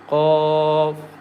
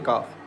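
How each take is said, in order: First: The first consonant is deep, heavy and far back. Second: The first consonant is a light, forward k. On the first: The speaker calls it right. "Qaf is very thick and heavy letter" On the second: The speaker calls it wrong. "Don't say kaf. Kaf is wrong"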